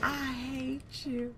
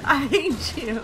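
First: Slow, dragged-out I hate you; slow drawn-out hate. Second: Louder, higher playful hate; loud mock hatred. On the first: Pretend. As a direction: stretch every word sulkily. Repeating at killer. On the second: Real, not acted. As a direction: yell it at the player who killed you. Shouting at killer.

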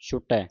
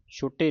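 First: ਛੁਟੈ ending in an open "ai"; ਛੁਟੈ as "shu-tai", the corrected reading. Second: ਛੁਟੇ ending in a closed "ay"; ਛੁਟੇ as "shu-tay", the mistaken reading. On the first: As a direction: open up the last vowel of ਛੁਟੈ. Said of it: "ਇੱਥੇ ਦੋ ਦੁਲਾਵਾਂ ਲੱਗੀਆਂ". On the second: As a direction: end ਛੁਟੇ on a narrow e. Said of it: "ਨਹੀਂ ਪੜ੍ਹਨਾ". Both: Shown as a demonstration.

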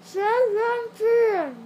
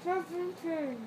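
First: Slow loud shout with stuffed cheeks; loud stuffed-mouth shout. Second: Mushy words round a mouthful; cheeks stuffed full. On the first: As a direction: force it out through a full mouth. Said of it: "Say it now". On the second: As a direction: mouth crammed with marshmallows. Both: Real, not acted.

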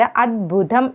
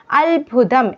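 First: അദ്ഭുതം with a d before bh; correct form. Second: അത്ഭുതം with an l-sound before bh; common wrong form. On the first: Teacher correcting learners, clear d in അദ്ഭുതം. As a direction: say അദ്ഭുതം as "ad-bhutham". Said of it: "എഴുതേണ്ടത് അദ്ഭുതം എന്നാണ്". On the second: Teacher showing the usual mistake, "al" in അത്ഭുതം. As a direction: say അത്ഭുതം as "albhutham". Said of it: "എന്നത് എഴുതേണ്ടത്". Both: Shown as a demonstration.

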